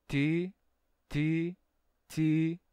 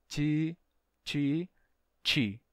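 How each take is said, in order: The two takes are said the same way.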